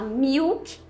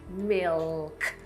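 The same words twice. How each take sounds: First: The L sounds like a U vowel. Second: The L sounds like a real L. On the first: The speaker calls it wrong. "a gente não fala milk" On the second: The speaker calls it right. "a gente fala milk"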